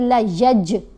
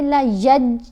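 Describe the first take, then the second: First: The final j is released with an echoing bounce. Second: The final j stops flat with no bounce. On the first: The speaker calls it right. "बल्कि ला यज, जीम को हिला कर पढ़ा जाएगा" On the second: The speaker calls it wrong. "ऐसे नहीं पढ़ना"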